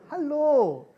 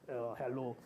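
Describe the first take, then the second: First: It is said warmly, with real feeling. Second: It is said offhandedly, without real feeling.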